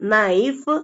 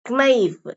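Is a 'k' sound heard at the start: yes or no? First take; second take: no; yes. First: The word starts with an n sound. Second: The word starts with a k sound. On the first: The speaker calls it right. "கேவை அடிச்சுட்டு" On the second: The speaker calls it wrong. "அந்த கேவை உச்சரிச்சு நம்ம சொல்லக்கூடாது"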